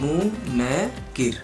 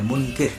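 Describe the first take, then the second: First: The n and k are said separately. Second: The n and k are joined without a vowel. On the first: "यहाँ हम न को अलग बोले हैं और क को अलग अलग बोले हैं" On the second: "ये मात्रा ये दोनों पर है, मिला के है"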